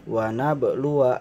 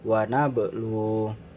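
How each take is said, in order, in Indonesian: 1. Suku kata 'wa' terakhir dibaca. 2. Suku kata 'wa' terakhir dihilangkan. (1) "jika dibaca wasol" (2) "Jika dibaca wakof"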